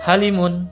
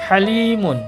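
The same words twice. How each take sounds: First: The vowel is said short, not held. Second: The vowel is held long, for two beats. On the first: The speaker calls it wrong. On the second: The speaker calls it right.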